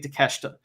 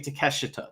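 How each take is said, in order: First: The name is said with Japanese pronunciation. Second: The name is said with English pronunciation. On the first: "when the Japanese people say it, they say" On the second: "When p- people in English say it, they say"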